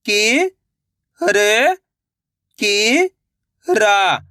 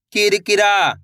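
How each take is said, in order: First: "कि-र-कि-रा" very slowly, syllables apart; sounding out slowly. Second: Said in the usual way. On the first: Shown as a demonstration. Teacher showing children how to sound out a word. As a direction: sound out "कि-र-कि-रा" piece by piece. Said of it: "एक एक अक्षर का उच्चारण करके". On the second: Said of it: "तो मिलके बन जाएगा".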